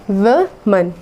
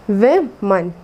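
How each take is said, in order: The two takes are said the same way.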